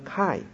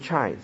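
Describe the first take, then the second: First: It begins with a "k" sound. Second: It begins with a "ch" sound. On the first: The speaker calls it right. "是读成chi" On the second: The speaker calls it wrong. "其实不是读成chi"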